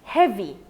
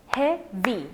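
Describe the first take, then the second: First: Said in the usual way. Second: "heavy" split into two beats, hea - vy; syllables separated. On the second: Shown as a demonstration. Teacher showing the class two syllables, "heavy" said syllable by syllable. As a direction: break "heavy" in two with a clear pause between syllables. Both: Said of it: "two syllables".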